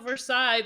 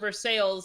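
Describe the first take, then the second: First: It is said with the French pronunciation. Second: It is said with the local Kentucky pronunciation. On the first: This is the original name of the French place. "in Kentucky they have a Versailles" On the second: This is how locals say the town's name. "but we call it Versailles"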